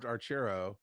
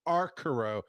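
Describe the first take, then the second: First: The middle consonant is a 'ch' sound. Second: The middle consonant is a hard 'k' sound. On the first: The speaker calls it right. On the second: The speaker calls it wrong.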